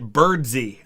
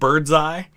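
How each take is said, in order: First: The name ends with an 'ee' sound. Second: The name ends with an 'eye' sound. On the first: This is how the man himself said his name. The speaker calls it right. "he pronounced it birdsey" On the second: This is how the spelling seems to read. The speaker calls it wrong. "it looks like bird's eye"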